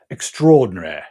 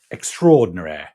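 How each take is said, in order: First: It is said in a British accent. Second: It is said in a British accent.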